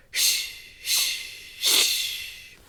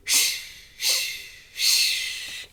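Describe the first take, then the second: No difference in how they are said.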